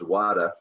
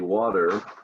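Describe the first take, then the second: First: It is said in a Boston accent. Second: It is said in a General American accent. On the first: "the famous Boston accent, it becomes water" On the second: "you and I say water"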